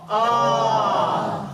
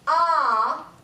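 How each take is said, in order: First: It is voiced with a lowered larynx, like a yawn. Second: It is voiced with a wide-open mouth, off the larynx. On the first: The speaker calls it right. "drop that larynx like a yawn, and just say ah" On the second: The speaker calls it wrong. "if I open my mouth, ... I get off the larynx"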